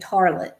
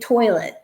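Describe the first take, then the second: First: The first vowel is an 'ar' sound. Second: The first vowel is an 'oy' sound.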